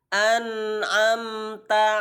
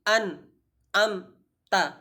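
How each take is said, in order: First: The word flows at a moderate length. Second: There is a stop inside the word. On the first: The speaker calls it right. "Yang sempurna" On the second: The speaker calls it wrong. "tidak boleh kita uh, berhenti"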